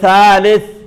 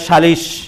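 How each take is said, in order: First: The word ends with a soft 'th' sound. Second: The word ends with an 'sh' sound. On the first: This is the Arabic form. "আরবিতে বলে সালেস" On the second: This is the Bengali form. "আর বাংলা বলে সালিশ"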